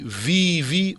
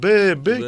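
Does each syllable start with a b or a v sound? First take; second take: v; b. First: Each syllable starts with v and has an ee vowel. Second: Each syllable starts with b and has an eh vowel. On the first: This is how the written word reads today. "λέει βι-βι" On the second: This is how the word sounded in ancient times. "δεν είναι τίποτε άλλο από τον μπε-μπε"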